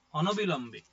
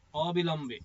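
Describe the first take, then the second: First: অনবিলম্বে said with an extra অন at the start, ɔnobilambe; slip of the tongue. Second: অবিলম্বে said cleanly as ɔbilambe, no অন; corrected word. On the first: Teacher says the wrong form অনবিলম্বে first, ɔnobilambe. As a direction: say অনবিলম্বে as a mistaken form, then stop. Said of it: "অনবিলম্বে বলা হয়". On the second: Teacher corrects to অবিলম্বে, said plainly as ɔbilambe. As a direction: give the right form অবিলম্বে plainly. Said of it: "মানে বিলম্ব না করে". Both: Shown as a demonstration.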